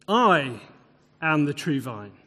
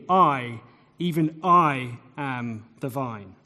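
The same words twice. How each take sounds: First: Said in the usual way. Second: "I, even I" said slowly and lower with weight on "I"; solemn emphasis on "I", slow and low; stress on I. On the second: Shown as a demonstration. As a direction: lean hard on "I" then "even I", lower and unhurried. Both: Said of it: "put the emphasis on him".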